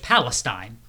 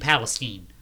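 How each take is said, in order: First: The name is said the standard way. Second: The name is said the local Midwest way. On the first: It names the region in the news. "there's Palestine" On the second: It names the town in Ohio. "Unless you're in Ohio and it's New Palestine"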